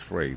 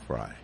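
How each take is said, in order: First: The name does not sound like 'fry'. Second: The name sounds like 'fry'. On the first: This is the reading the spelling suggests. The speaker calls it wrong. "you would think that is Frey" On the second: This is how she says her own name. The speaker calls it right. "I'm going to go with Carly Fry"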